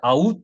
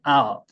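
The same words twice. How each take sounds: First: Out split into a-u; two-syllable mispronunciation. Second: Out as one falling glide; falling diphthong. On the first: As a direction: say 'out' as two even Korean syllables. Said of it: "이렇게 발음이 되지 않고". (out을 '아-우트'처럼 끊어서) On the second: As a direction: say 'out' sliding down from a strong 'a'. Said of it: "이렇게 돼야 되는데". (out을 '아'에서 떨어지는 이중모음으로) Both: Shown as a demonstration.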